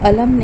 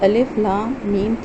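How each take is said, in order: First: The letters are joined into one word. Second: Each letter name is said separately. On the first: The speaker calls it wrong. "इसको अलम नहीं पढ़ सकते आप" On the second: The speaker calls it right. "तीनों को अलग अलग पढ़ेंगे"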